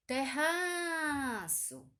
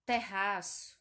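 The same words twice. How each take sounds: First: Terraço stretched out slowly, pitched higher and louder on the stressed ra, as if calling across a yard; stress drawn out like calling someone. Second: Said in the usual way. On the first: Shown as a demonstration. Teacher showing pupils the stressed syllable, calling terraço out slowly. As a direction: call out terraço slowly, holding the ra syllable long and high. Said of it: "como se tivesse chamando alguém". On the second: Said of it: "eu vou dizer assim".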